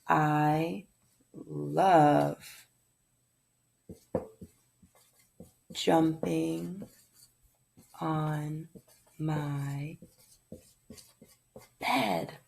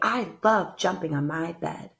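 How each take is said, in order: First: It is said in a calm, plain tone. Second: It is said in an excited tone.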